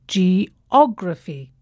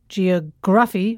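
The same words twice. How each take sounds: First: The stress is on the second syllable. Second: The stress is not on the second syllable. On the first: The speaker calls it right. "the stress falls on the third syllable from the end" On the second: The speaker calls it wrong.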